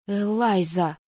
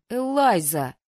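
First: Her name hissed like a viper. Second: A louder indignant call of her name. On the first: Heroine warning a stubborn friend, hissed name. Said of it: "прошипела я не хуже любой гадюки". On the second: Asakura scolding his girlfriend at lunch, indignant. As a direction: rebuke her sharply but lightly. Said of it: "возмутился Асакура". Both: A narrator's reading.

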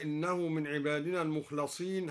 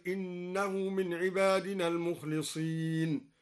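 First: Said in the usual way. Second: المخلصين recited with kasra on the ل; kasra on lam. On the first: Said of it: "هكذا". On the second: Shown as a demonstration. Teacher recites المخلصين as an active participle. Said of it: "وكسر اللام هكذا اسم فاعل".

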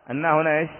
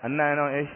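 No difference in how they are said.

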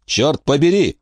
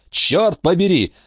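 First: Короткий выкрик, чуть выше обычного; выругайся с досадой, но без крика; восклицание. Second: «Чёрт побери!» медленнее и заметно выше, с нажимом на «Чёрт»; растяни «Чёрт побери!» от досады; повторное восклицание. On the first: (досадливое «Чёрт побери!») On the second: (медленное высокое «Чёрт побери!») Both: A narrator's reading. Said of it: "воскликнул Крах".

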